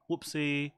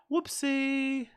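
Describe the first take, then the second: First: Said in the usual way. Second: High playful squeak on Whoopsie; high mock squeaky oops. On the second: Mock oops after volume mistake.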